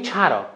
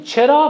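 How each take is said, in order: First: «چرا» with its first vowel opened to a; accented mispronunciation. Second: Said in the usual way. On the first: Shown as a demonstration. Coach showing how misplaced vowels make an accent, «چرا» said as "chara".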